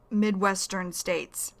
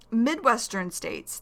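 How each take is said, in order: First: "Midwestern states" said slowly, each syllable distinct; slow and clear. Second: Said in the usual way. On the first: Shown as a demonstration.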